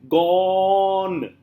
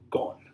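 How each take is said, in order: First: The word is split into two syllables. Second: The word is said as one syllable. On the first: The speaker calls it wrong. "We never say gone" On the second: The speaker calls it right. "one vowel sound is there"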